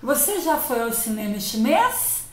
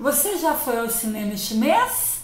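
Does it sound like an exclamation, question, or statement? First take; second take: question; question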